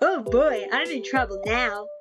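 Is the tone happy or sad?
happy. It is said in a happy tone.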